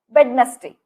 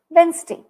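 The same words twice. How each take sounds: First: The middle D sound is pronounced. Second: The middle D sound is silent. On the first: The speaker calls it wrong. "All of these pronunciations are wrong" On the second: The speaker calls it right. "The D has to be silent there"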